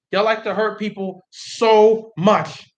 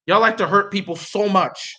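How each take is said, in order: First: Slow, with "so" and "much" stretched and set apart; drawn-out SO MUCH. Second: Said in the usual way. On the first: Real, not acted. Hurt fan reproaches the Jets, drawing out "so much". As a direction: lean hard on "so much", a gap between the words.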